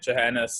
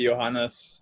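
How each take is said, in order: First: The name is given an American pronunciation. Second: The name is given a German pronunciation. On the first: This is how Americans say it. "The Americans say Johannes" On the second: This is how people in Germany say it. "in Germany we say Johannes"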